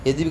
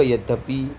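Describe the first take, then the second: First: यद्यपि said with a bare d, no y glide; यद्यपि as "yad-pi"; wrong pronunciation. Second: यद्यपि said as "yad-ya-pi"; यद्यपि with a clear "dya"; correct pronunciation. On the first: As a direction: drop the second y in यद्यपि. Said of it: "अशुद्ध पढ़ रहे हो". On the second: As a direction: sound the y after d in यद्यपि. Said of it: "आप शुद्ध पढ़ेंगे". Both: Shown as a demonstration.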